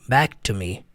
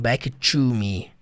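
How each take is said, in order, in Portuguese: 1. A palavra 'to' é curta, leve e reduzida. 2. A palavra 'to' é dita completa e clara. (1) "você fala de modo mais prático, mais simples, mais direto" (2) "E não"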